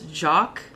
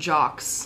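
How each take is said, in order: First: The name ends without an S sound. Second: The name ends with an S sound. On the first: The speaker calls it right. "that is Jock" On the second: The speaker calls it wrong. "not Jox"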